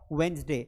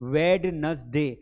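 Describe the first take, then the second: First: The first D sound is left out. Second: The first D sound is pronounced. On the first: The speaker calls it right. "Actual में ... इसे English में कहा जाता है वेंसडे" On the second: The speaker calls it wrong. "ड को हम pronounce करने की कोशिश कर रहे हैं"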